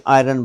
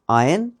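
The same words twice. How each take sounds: First: आयरन with the r sounded, 'eye-run'; usual mispronunciation. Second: आयन with silent r, 'eye-un'; correct pronunciation. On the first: Teacher quoting the common way of saying it, usual mispronunciation. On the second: Teacher modelling the word for iron, correct pronunciation. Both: Shown as a demonstration. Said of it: "जिन्होंने आयरन बोल दो".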